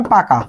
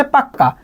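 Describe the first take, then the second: First: Said in the usual way. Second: পাক্কা with a long held ক; doubled consonant. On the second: Shown as a demonstration. Teacher demonstrating emphatic পাক্কা to the class. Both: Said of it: "পাকা থেকে আমি বললাম হচ্ছে পাক্কা".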